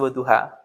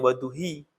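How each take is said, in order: First: The word ends with an 'a' vowel. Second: The word ends with an 'i' vowel. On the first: The speaker calls it right. "pasti waduha" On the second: The speaker calls it wrong. "nggak mungkin dibaca waduhi"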